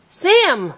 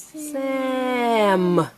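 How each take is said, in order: First: SAM short and higher; said fast. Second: SAM with a long hissed S and held M; stretched out. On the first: Teacher confirming the rhyme, said fast. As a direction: blend SAM into one brisk word. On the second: Teacher prompting a child's rhyme, stretched out. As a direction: draw SAM out slowly. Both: Shown as a demonstration. Sounding out, then blended word.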